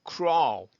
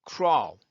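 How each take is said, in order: Both takes have the same delivery.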